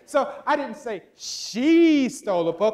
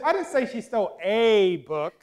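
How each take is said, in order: First: The stress is on the word I. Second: The stress is on the word a.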